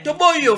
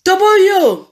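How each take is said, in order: First: Said in the usual way. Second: Put-on to boyo shouted high and loud, boyo stretched; full shout. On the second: Shown as a demonstration. Vlogger yelling the catchphrase at Fally, full shout. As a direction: yell to boyo across the room.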